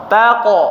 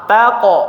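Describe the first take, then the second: The two takes are said the same way.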